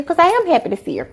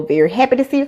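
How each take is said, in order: First: AM lifted high for sincere insistence; stress on AM. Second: Said in the usual way. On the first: Real, not acted. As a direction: lean on "am" with a higher pitch. Insists she truly is happy.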